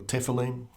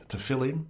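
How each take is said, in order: First: "tefillin" said as TEFF-uh-leen, front-stressed; alternative pronunciation. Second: "tefillin" said with stress on the middle FILL; first pronunciation variant. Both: Shown as a demonstration. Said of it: "looking up pronunciations".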